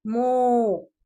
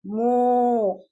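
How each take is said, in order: First: मो stretched very slowly, the o held long; slow drawn-out demo. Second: मो said loud with a round o; clear syllable demo. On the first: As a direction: drag मो out so children hear the vowel. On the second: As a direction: model मो for the class. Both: Shown as a demonstration. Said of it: "ऐसे मो".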